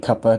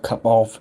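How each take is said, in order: First: The 'of' is reduced to a weak vowel. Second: The 'of' is pronounced fully as a word. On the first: This is how people in the UK say it. "it's the way we say it because we say cuppa" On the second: This is not how people in the UK say it. "not cup of"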